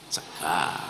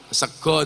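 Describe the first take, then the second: First: It is said with an a vowel, Kebumen style. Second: It is said with an o vowel, Purworejo style.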